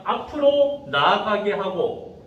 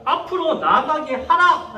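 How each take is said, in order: First: Said in the usual way. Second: Acted divine command, each word driven home; forceful command. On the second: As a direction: order them onward as God commanding Moses. God's command, acted after plain reading.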